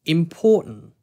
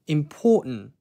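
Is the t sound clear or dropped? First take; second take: dropped; dropped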